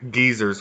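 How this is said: It is said the British way, like geezers.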